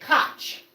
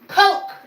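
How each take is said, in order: First: The name is said the Central European way. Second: The name is said the Midwestern way, like coke. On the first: The bearer is of Central European descent. "if you're of Central European descent and your name is K O C H, you say Koch" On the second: The bearer is from the Midwest. "in the Midwest, ... they're called Coke"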